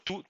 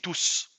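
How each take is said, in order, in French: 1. Le s final ne se prononce pas. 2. Le s final se prononce. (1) "la différence de prononciation entre tout, T O U S, c'est un déterminant" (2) "et tous ... tous est un pronom"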